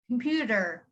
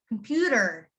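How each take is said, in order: First: The middle consonant is a soft D sound. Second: The middle consonant is a soft D sound.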